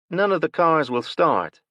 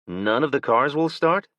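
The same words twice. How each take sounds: First: High, loud woman stating None of the cars will start with a falling end; woman's flat statement. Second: None of the cars will start asked with a rise on start; Will's disbelieving question. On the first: Woman parked nearby tells Will, statement falling. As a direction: say it as a fact, the tune dropping on start. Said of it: "the woman parked next to them said". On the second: Will echoes the woman in disbelief, rising question. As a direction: repeat it back as a question, rising at the end. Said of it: "Will asked". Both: A narrator's reading.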